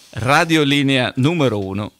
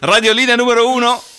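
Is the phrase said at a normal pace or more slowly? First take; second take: more slowly; normal. First: The phrase is said more slowly and softly. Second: The phrase is said at a normal pace.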